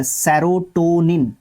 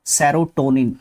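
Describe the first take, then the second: First: Slow, careful. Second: Said in the usual way. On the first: Shown as a demonstration. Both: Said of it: "उसका सही spelling आपको देखने को मिलता है".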